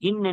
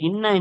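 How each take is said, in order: First: The word ends with a single short n. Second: The word ends with a doubled n and vowel. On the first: "இன் என்று படித்தால்" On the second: "இன்ன என்பதை"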